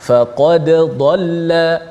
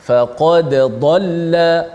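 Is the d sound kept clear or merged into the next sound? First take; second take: clear; clear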